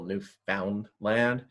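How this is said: It uses the general American and British pronunciation. This is the standard outside usage. "In technically American and British English, it is stu- still Newfoundland"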